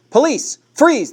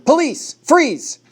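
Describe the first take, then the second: First: High, loud barked command; police yell. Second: High, loud command to freeze; police shout. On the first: Big policeman orders the suspect, loud yell. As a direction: roar the order across the clearing. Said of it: "the big policeman yelled". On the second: Officer confronts the armed man, loud shout. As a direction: bark the order at the gunman. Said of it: "I heard Jacob shout". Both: A narrator's reading.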